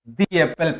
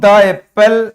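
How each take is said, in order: First: The word 'the' sounds like 'thee'. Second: The word 'the' sounds like 'thuh'. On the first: The speaker calls it right. "दी Apple पढ़ेंगे" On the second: The speaker calls it wrong. "द Apple की जगह"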